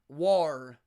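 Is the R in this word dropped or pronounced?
pronounced. The R sound is strong and clearly pronounced. "they think Elizabethan had a hard R"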